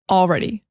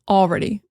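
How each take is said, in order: First: The L is pronounced and the word is full. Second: The same.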